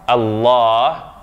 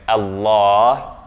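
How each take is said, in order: Both takes have the same delivery.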